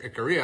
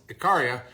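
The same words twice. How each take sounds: First: Ikaria said ih-KER-ee-a, R-coloured middle vowel; second pronunciation. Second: Ikaria said ih-KAH-ree-a, open AH in the middle; first pronunciation. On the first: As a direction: Ikaria with an American ER sound in the middle. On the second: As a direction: Ikaria with a broad AH on the second syllable. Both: Shown as a demonstration. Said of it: "or however how you say it".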